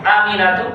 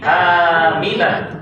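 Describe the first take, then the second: First: The first vowel is short. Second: The first vowel is long. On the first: The speaker calls it wrong. "Bukan Aminatu" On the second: The speaker calls it right. "alif fathah panjang. Harus panjang"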